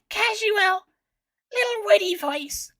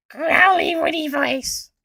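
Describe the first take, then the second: First: High, light and breezy cartoon voice; a casual, playful quip voice, pitched up; casual witty voice. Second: High, slow, growling cartoon voice; growly witty voice. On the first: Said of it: "my attempt". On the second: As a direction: growl the words slowly, high and loud. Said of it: "my attempt, to growly witty voice". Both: Shown as a demonstration.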